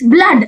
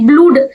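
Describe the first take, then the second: First: The vowel is a short 'uh' sound. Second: The vowel is a long 'oo' sound. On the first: The speaker calls it right. "It's blood" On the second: The speaker calls it wrong. "How can a people say blood?"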